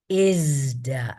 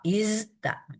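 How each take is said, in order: First: The z is followed by a d. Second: The z is followed by a t. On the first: "dilembutkan menjadi" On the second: "kalau kita baca benar-benar"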